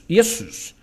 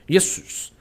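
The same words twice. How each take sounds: First: The name begins with a Y sound. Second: The name begins with a Y sound.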